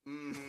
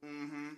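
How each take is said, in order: Both takes have the same delivery.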